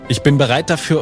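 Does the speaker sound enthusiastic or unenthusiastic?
enthusiastic. It is said eagerly, with lots of energy. The readiness is real and eager. The speaker calls it right. "Ich meine ein, ich bin bereit dafür und hab richtig Bock"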